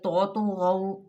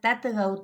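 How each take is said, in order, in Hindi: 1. दोनों t ध्वनियाँ भारी और मोटी हैं। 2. दोनों t ध्वनियाँ हल्की और पतली हैं। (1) "आप दोनों को पुर कर गए, ये भी गलत है।" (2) "ये गलत है, दोनों ही ता बना दिए।"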